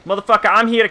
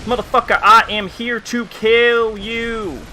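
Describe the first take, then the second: First: Fast, high ghetto-country threat; high-pitched trash talk in a ghetto-country accent. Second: Put-on ghetto-country accent. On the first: Acted. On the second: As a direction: stretch out each word of the threat, high, in a half-ghetto, half-country accent. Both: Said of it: "halfway between ghetto and country".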